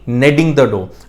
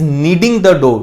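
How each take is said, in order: First: The first vowel is short, like 'ned'. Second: The first vowel is long, like 'need'. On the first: The speaker calls it wrong. "ना कि नेडिंग the dough" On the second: The speaker calls it right. "सही pronunciation नेडिंग नहीं नीडिंग होती है"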